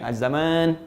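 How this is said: The vowel after z is held long.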